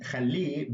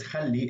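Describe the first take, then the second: First: Khalli with the final -li stressed and held; stress on last syllable. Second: Said in the usual way. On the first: Shown as a demonstration. Teacher explains the ha ending, last syllable of khalli stressed. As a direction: lean into the end of khalli. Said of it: "would have a ha at the end". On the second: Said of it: "is just a ya at the end".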